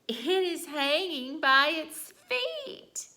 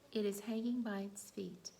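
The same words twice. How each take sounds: First: It is said with strong emotion, not questioning. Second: It is said as a plain, calm statement.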